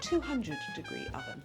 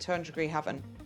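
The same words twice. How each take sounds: First: Each syllable is clearly and separately enunciated. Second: The syllables are run together and mumbled.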